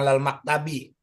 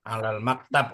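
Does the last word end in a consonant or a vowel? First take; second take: vowel; consonant. First: The last word ends with an added i vowel. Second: The last word ends on a consonant, no final vowel. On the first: The speaker calls it wrong. "Nggak usah alal maktabi" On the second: The speaker calls it right. "Udah bener gitu"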